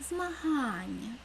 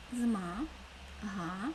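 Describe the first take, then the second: First: Змагання slow, га stretched and raised; stress on га. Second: Зма-га-ня slowly, syllable by syllable with pauses; split into syllables. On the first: Teacher showing pupils the stressed syllable га, stretched. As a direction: draw out and lift га in Змагання. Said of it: "Наголошений склад Га". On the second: Teacher counting syllables of змагання aloud for pupils, slow. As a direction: chop Зма-га-ня into three slow beats. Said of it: "В слові змагання також три склади". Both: Shown as a demonstration.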